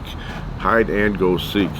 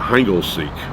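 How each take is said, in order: First: Each word is said clearly and separately. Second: The words are run together quickly as one.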